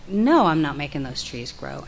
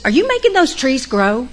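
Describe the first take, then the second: First: Lower, deadpan denial; low, flat realization. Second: High, loud pointed question; stern counselor. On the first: [name] answering the counselor, low deadpan denial. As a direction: say it as the penny drops. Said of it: "I was like". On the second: Counselor quizzing [name] about the trees, pointed and loud. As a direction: pin her down with the question. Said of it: "And she said". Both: Retold or imitated.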